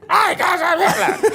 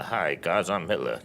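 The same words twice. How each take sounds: First: Hitler! shrieked much higher and louder, laughing; top of his range. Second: A low, flat, deadpan Hi guys I'm Hitler; low end of his range. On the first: Actor showing the top of his acting range, a high laughing shriek. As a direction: squeal Hi guys I'm Hitler as high as you can go. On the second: Actor showing the bottom of his acting range, low and soft. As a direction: keep Hitler low and soft, barely moving. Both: Shown as a demonstration. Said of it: "this is my range as an actor".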